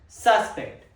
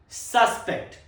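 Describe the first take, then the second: No difference in how they are said.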